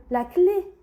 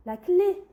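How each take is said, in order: Both takes have the same delivery.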